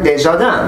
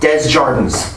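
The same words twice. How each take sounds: First: The name is pronounced the French way. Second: The name is pronounced the English way. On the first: The name means of the gardens. The speaker calls it right. "if you know French, that's Karen Desjardins" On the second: This is how the family says its own name. The speaker calls it wrong. "her family just called it Desjardins"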